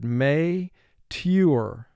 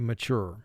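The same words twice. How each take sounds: First: Both syllables are pronounced fully and distinctly. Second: The first syllable is reduced and quick. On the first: It is said this way to help with spelling. "for spelling, we will have to exaggerate the sound of both syllables somewhat" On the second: It is said this way in everyday speech. "in conversation, we say mature"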